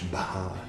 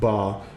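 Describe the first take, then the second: First: The b is followed by an h sound. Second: The b has no h sound after it. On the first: The speaker calls it right. "B-H, Bha" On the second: The speaker calls it wrong. "not Ba"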